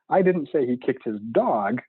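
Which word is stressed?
dog. The stress falls on the word dog. He kicked something other than the dog. "He clearly kicked something. It just wasn't that"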